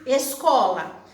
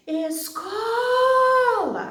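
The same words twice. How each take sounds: First: Said in the usual way. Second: ESCOLA called out high and loud, CO hugely stretched; calling the word. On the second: Shown as a demonstration. Teacher calling the word to find its stress, CO held long in Escola. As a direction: call out Escola as es-COOOO-la, very slowly. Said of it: "chama a palavra. A sílaba mais comprida".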